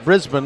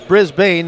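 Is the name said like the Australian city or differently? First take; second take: Australian city; differently. First: The name is said like the Australian city. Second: The name is said unlike the Australian city. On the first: The speaker calls it wrong. "not Brisbane like you're when you're in Australia" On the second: The speaker calls it right. "It is Brisbane"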